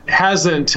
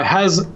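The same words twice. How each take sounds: First: "hasn't," said in full with its nt ending; correct word. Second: "hasn't." cut short, the nt ending swallowed; how Siri hears it. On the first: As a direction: say "hasn't," properly, every sound there. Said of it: "words with apostrophes". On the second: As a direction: say "hasn't." the way dictation garbles it. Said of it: "I've heard is". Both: Shown as a demonstration.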